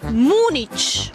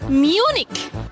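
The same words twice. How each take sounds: First: The name is pronounced with Spanish sounds. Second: The name is pronounced with English sounds. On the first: This is the usual form in Spanish. "En español es Múnich" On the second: This is the usual form in English. "En inglés es Múnich"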